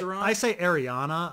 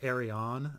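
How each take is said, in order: First: The name ends with an extra 'ah' syllable. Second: The name ends without an extra 'ah' syllable. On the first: "You're adding the extra A in there" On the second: "A lot of people say Arianne"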